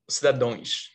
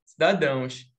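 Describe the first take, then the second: First: Cidadões said lower, with a closed nasal õ ending, as the wrong answer; wrong form cidadões. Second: Cidadãos with the nasal ão diphthong, said firmly as the correct answer; right form cidadãos. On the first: Teacher voicing the wrong plural Cidadões to her class. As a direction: drop low and say Cidadões as the mistaken plural. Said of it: "O certo é cidadãos ou cidadão?". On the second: Teacher giving her class the correct plural Cidadãos. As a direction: confirm Cidadãos clearly, ending in ãos. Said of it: "Muito bem". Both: Shown as a demonstration.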